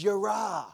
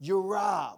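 First: Yirah said as yeh-RAH, stress on the last syllable; Hebrew word. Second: Yirah said again as yeh-RAH, slower and clearer; slow repeat of Hebrew yirah; Hebrew word repeated. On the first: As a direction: sound out yirah carefully, falling. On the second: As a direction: repeat yirah slowly for the room. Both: Shown as a demonstration. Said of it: "the word fear here in the Hebrew language is".

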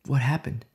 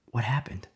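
First: Said in the usual way. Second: Hushed whispered question. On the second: Real, not acted. Preacher whispering to the congregation. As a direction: whisper it to draw them in.

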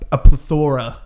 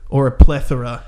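First: "plethora" said pleh-THOR-uh; stressed second syllable. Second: "plethora" said PLETH-uh-ruh; stressed first syllable. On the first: Storyteller trying out a word for the dogs, "plethora" as pluh-THOR-uh. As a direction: put the stress on the middle of "plethora". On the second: Storyteller offering the other option, "plethora" as PLETH-uh-ruh. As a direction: put the stress on the start of "plethora". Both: Shown as a demonstration. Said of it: "I go with plethora".

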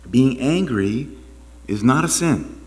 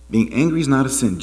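First: "angry" stretched out slowly, then "not" leaned on; slow emphatic. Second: Said in the usual way. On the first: Shown as a demonstration. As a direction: lay it down slowly, word by word.

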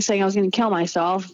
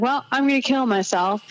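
First: Said in the usual way. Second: High, upset declaration; upset quote. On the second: Retold or imitated. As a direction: blurt it out, pitched up and distraught. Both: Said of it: "I'm like".

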